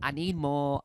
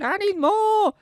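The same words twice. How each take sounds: First: It is said in a calm, relaxed way. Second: It is said in a desperate, craving way. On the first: The fan wants more but is happy to wait. "it's like nice, it's not intense" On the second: The fan cannot bear to wait for more. "like on one of those rocking chairs going"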